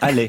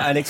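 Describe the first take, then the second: First: The name ends on a vowel, no X sound. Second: The name ends with a pronounced X sound. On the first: The speaker calls it right. "on dit Allais. Il ne veut pas qu'on prononce le X" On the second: The speaker calls it wrong. "On ne dit pas Alex"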